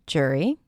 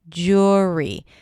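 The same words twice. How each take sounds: First: The first vowel sounds like 'er'. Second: The first vowel sounds like 'or'. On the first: "reduce the sound and just pronounce it as jury with an er" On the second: "then it's the or, as in pour"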